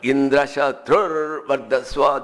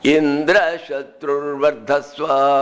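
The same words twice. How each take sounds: First: The high pitch falls on the last syllable. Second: The high pitch falls on the first syllable. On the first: The enemy who will kill Indra grows. The speaker calls it right. "Antyodatta. Udatta or higher up, the last one" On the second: The enemy who will be killed by Indra grows. The speaker calls it wrong. "This is called Adyodatta. The first uh, syllable is accentuated up"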